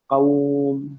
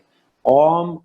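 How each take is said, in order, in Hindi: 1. वाव की ध्वनि नर्म और हल्की है। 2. वाव की ध्वनि भारी है, उर्दू के kaum जैसी। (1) "वाव को नर्म और मुलायम पढ़ेंगे।" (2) "कौम गलत"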